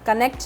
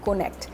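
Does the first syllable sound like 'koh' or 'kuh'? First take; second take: kuh; koh. First: The first syllable has a short 'uh' vowel. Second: The first syllable has a rounded 'oh' vowel. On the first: The speaker calls it wrong. "कनेक्ट नहीं" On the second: The speaker calls it right. "कनेक्ट नहीं कोनेक्ट"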